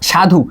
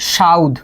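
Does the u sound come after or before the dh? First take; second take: after; before. First: The u sound comes after the dh. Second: The u sound comes before the dh.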